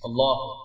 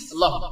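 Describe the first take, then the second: First: It is said slowly and calmly. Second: It is said quickly and hurriedly.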